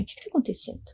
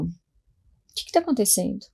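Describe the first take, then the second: First: Curt question in a whisper; whispered dry question. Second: A lightly voiced dry doctor asking; curt dry question. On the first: Retold or imitated. (pergunta seca sussurrada) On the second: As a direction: ask it short and dry. (pergunta seca e curta) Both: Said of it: "Bem, bem seca".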